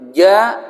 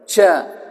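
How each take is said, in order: First: The consonant is voiced, with the breath held back. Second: The consonant is hissy, with breath flowing out. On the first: The speaker calls it right. "Jadi ja, ji, ju, aj, gitu" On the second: The speaker calls it wrong. "nggak boleh baca gini ... mengalir nafas"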